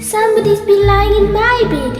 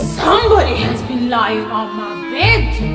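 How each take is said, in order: First: A small, sharp, shrill voice of a wee bear. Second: A deep, gruff voice of a huge bear.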